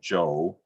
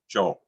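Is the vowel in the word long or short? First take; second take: long; short. First: The vowel is drawn out and long. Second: The vowel is short and clipped. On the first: It is the personal name. "the name Joe, which is sort of elongated" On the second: It is a single bare syllable. "a short clipped version of that word"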